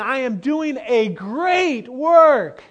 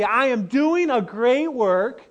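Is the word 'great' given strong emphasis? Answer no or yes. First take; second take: yes; no. First: The word great is strongly emphasized. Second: The word great has no special emphasis.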